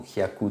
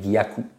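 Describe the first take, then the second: First: The word starts with a k sound. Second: The word starts with a g sound. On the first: The speaker calls it wrong. "ou kyaku tout simplement" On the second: The speaker calls it right. "Non, il y a un G"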